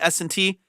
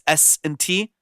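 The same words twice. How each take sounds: First: The S sounds are softened and not harsh. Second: The S sounds are sharp and harsh. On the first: The speaker calls it right. "it's taking all of the harshness out" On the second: The speaker calls it wrong. "if I take that off and I say S and T, you hear all the harshness"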